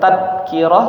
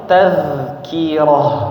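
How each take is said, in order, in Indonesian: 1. Huruf tengahnya bunyi d yang keras. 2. Huruf tengahnya bunyi z yang mengalir. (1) "Bukan bukan tadkirah" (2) "tapi tazkirah, ya. Mengalir suaranya"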